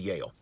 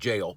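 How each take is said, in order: First: The word begins with a Y sound. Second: The word begins with a J sound. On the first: This imitates how the friend says the word. "That's what he calls it" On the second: This is how most people say the word. "Everybody else pronounces it jail"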